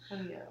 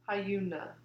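First: The name begins with a plain 'ha' sound. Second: The name begins with a 'hyoo' sound. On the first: The speaker calls it wrong. "Why do people say Hanya?" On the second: The speaker calls it right. "The Y is before the U"

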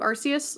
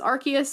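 First: The name is said closer to Japanese. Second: The name is said as English spelling suggests. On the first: "in Japanese it's closer to Arceus" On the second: "Everyone else I've talked to says Arceus, and I'm like, because in English that's what it looks like"

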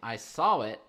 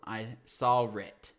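First: There is no R sound between 'saw' and 'it'. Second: There is an R sound between 'saw' and 'it'. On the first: "You remove an R before a vowel. For example"

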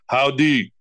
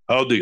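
First: It is said slowly. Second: It is said fast.

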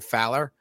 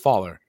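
First: The first vowel sounds like 'ow' in 'cow'. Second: The first vowel sounds like 'aw' in 'fall'. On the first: This is how the owner says the name. The speaker calls it right. "It's Matthew Fowler" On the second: This is how other people say the name. The speaker calls it wrong. "So everyone says Faller"

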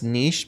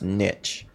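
First: The word is pronounced in a French way. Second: The word is pronounced in an English way. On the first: The speaker calls it wrong. "People like to think that it's niche because we think that it's a French word" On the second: The speaker calls it right. "it's actually an old English word. And it's pronounced niche"

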